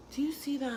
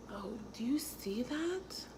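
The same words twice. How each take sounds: First: Said in the usual way. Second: Hushed voiceless aside; whisper. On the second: Real, not acted. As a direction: breathe it out like a secret. Showing her contour, hushed.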